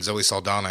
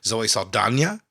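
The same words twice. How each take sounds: First: The last n is a plain n sound. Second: The last n is said like 'ny'. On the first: The speaker calls it wrong. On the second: The speaker calls it right.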